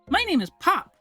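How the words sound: It is said in a put-on kid's voice.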